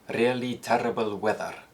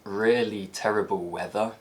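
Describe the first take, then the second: First: It has a Scottish accent with tapped Rs. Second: It has a standard southern British accent. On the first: "in Scotland is likely to be pronounced" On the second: "a phrase like"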